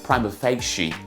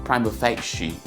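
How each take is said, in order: The two takes are said the same way.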